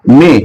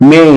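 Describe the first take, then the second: First: মে with a short pure "e"; local Bengali pronunciation. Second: মে drawn into a gliding "mei"; British pronunciation. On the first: Teacher showing how we say it, local pronunciation. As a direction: say মে short, no glide. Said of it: "আমরা উচ্চারণ করি". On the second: Teacher showing how the British say it, British pronunciation. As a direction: glide মে from e to i. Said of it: "ব্রিটিশরা উচ্চারণ করে". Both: Shown as a demonstration.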